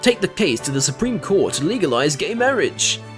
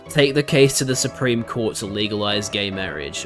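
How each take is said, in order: First: It is said in an imitated announcer-style voice. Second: It is said in the speaker's ordinary voice.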